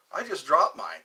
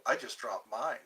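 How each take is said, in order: First: "dropped" hit louder with a falling tune; punchier delivery. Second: Said in the usual way. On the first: Shown as a demonstration. Streamer demonstrating how to deliver a pickup line. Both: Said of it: "It's how you say it".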